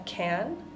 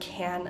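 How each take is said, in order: First: The word has a full, open vowel. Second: The word has a reduced vowel, like kin. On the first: It names a container. "whenever I'm talking about the can, I'm pronouncing that an sound" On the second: It is the helping verb. "whenever I'm using this verb, it goes back to that kin sound"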